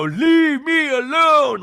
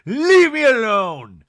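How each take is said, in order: First: Very high, loud, drawn-out mock wail; hammed-up shriek, stretching every word; over-the-top outburst. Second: Loud, drawn-out demand, less shrieky; loud mock protest, moderately high; toned-down outburst. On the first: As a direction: overblown imitation of a dramatic demand. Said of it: "But she doesn't go". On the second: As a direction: belt it slowly as an imitated demand. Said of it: "She just goes".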